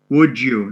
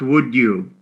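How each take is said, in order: First: The d and y sounds blend into j. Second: The d and y sounds are kept separate. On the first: The speaker calls it right. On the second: The speaker calls it wrong. "not would you"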